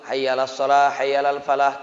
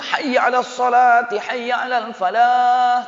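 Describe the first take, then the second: First: It is called out softly, without force. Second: It is called out loudly, with force.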